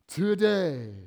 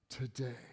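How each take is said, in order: First: Today punched out loud and strong; emphatic today. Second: Today dropped to a soft, awed murmur; hushed echo. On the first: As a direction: hit Today hard, like a proclamation. Emphatic repeat of Jesus' promise. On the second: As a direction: let Today fall away quietly, in wonder. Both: Acted.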